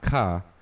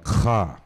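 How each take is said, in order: First: It starts with a plain k sound. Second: It starts with a guttural throat sound. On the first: The speaker calls it wrong. "not ka" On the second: The speaker calls it right. "there's a little guttural sound there"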